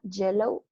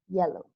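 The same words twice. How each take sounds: First: The first sound is hard, like Spanish ll. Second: The first sound is soft and gentle. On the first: The speaker calls it wrong. "No es fuerte como llanta" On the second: The speaker calls it right. "It's soft"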